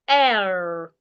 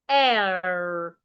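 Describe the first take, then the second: First: The vowel is said in an American accent. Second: The same.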